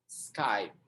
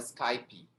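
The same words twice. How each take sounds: First: It ends cleanly on the final consonant. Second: An extra vowel sound is added after the final consonant. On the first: The speaker calls it right. "Pronuncia só o P" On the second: The speaker calls it wrong. "o brasileiro fala Skype ... pronuncia o E"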